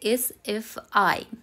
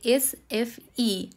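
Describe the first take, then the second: First: The last letter is pronounced like 'eye'. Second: The last letter is pronounced like 'ee'. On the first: This is the English way of saying it. "আর ইংলিশে বললে" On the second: This is the Swedish way of saying it. "এখানে সুইডেনে আইকে কিন্তু উচ্চারণ করা হয় ই বলে"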